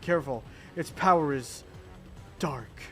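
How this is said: It is said in an exaggerated, overdramatic way.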